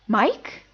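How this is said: The pitch rises toward the end. Being surprised to see someone. "That's the second tone"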